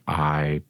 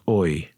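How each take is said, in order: First: It is said with a plain 'ai' vowel. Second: It is said with a Dublin 'oi' vowel.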